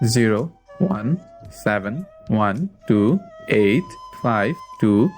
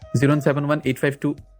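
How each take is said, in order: First: The number is said slowly. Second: The number is said quickly.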